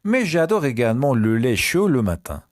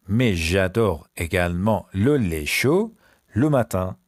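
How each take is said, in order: First: Said in the usual way. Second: Very slow French in separated chunks; slow repeat. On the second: Shown as a demonstration. Teacher repeats the hot milk sentence, very slowly. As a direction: pause between word groups, dictation-slow.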